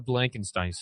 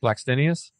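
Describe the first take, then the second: First: "Blankenstein" botched, ending like English "stine"; mispronounced surname. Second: "Blackstenius" as black-STEN-ee-us, rising at the end; corrected surname. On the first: Host butchering a player's surname, "Blankenstein" as BLANK-en-stine. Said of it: "No, I said that wrong". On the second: Host echoing co-host's correction, "Blackstenius" as black-STEN-ee-us. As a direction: say "Blackstenius" cleanly, BLACK with no N, questioning. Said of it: "See, now I can say it". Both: Real, not acted.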